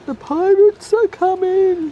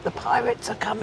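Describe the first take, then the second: First: High, loud and slow, drawn out like a town crier; dramatic pirate warning. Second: Soft, breathy ghost-story whisper, much quieter; spooky whisper. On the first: Repeating the pirate warning to husband, loud hammed-up alarm. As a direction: ham it up as a mock alarm. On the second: Pointing out a pirate ship to husband, eerie whisper. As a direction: hush it like a spooky secret. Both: Pretend.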